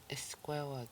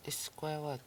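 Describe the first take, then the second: First: Whispered, no voice at all; unvoiced repeat of squawag. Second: Said in the usual way. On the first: Shown as a demonstration. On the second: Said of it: "The next word".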